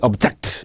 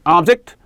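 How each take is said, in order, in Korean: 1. 강세는 두 번째 음절에 있어요. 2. 강세는 첫 번째 음절에 있어요. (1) "반대될 때 object" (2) "명사일 때 object"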